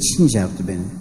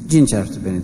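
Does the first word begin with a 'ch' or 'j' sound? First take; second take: ch; j. First: The first word begins with a 'ch' sound. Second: The first word begins with a 'j' sound. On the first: "Çin Lazca'dır" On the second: "Türkçesi de cindir"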